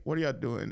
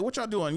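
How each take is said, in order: First: Imitated calm sister. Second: High, insistent mock questioning; imitated nagging mom. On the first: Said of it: "my sister answered the phone". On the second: Mom's voicemail to her missing son, high nagging imitation. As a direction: mimic a mother demanding an answer. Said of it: "it's my mom".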